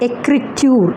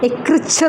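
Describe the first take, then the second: First: The middle consonant is a 't' sound. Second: The middle consonant is a 'ch' sound.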